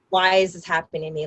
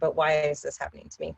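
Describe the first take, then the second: First: It sounds frustrated and complaining. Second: It sounds curious and questioning.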